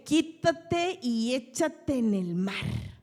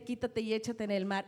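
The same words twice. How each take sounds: First: "Quítate y échate en el mar" slow and loud, each word drawn out; commanding the mountain. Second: Said in the usual way. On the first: Shown as a demonstration. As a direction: order the mountain away, slowly. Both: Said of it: "Donde tú dudes, no se echa al mar".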